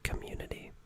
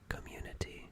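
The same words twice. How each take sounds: First: The T sound is softened or dropped. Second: The T sound is clearly pronounced. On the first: The speaker calls it wrong. "naturally I say like community" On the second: The speaker calls it right. "instead of community"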